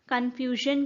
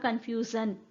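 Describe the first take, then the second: First: The consonant before the last syllable is 'zh'. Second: The consonant before the last syllable is 'z'. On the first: This is how the word is said today. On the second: This is how the word was said in the past.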